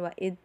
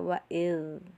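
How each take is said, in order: First: The final z sound is pressed and cut short. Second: The final z sound flows on smoothly. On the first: The speaker calls it wrong. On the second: The speaker calls it right. "Cara bacanya adalah"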